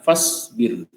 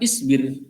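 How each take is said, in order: First: The i vowel is dropped, linked after fa. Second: The word starts with a spoken i vowel. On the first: "kalau dilanjut ya fasbir" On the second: "kalau kita satu-satu fa maka isbir"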